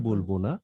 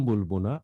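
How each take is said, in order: The two takes are said the same way.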